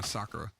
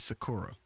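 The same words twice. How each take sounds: First: The name is said in a Japanese way. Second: The name is said in an anglicized way. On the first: This is how everyone else says it. The speaker calls it right. "the rest of the world is going Sakura" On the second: This is how the English dub said it. The speaker calls it wrong. "they would always pronounce the girl's name as Sakura"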